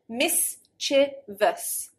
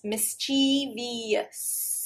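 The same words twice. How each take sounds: First: It is said with three syllables. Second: It is said with four syllables, a long E. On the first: The speaker calls it right. "the original pronunciation should be three syllables" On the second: The speaker calls it wrong. "I've added an extra syllable and I've lengthened"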